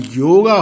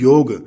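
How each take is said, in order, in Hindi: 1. शब्द लंबे 'aa' स्वर पर खत्म होता है। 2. शब्द व्यंजन 'g' पर खत्म होता है। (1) "अंत में ए या आ की ध्वनि लगाई जाती है" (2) "आ का साउंड ड्रॉप कर देती है"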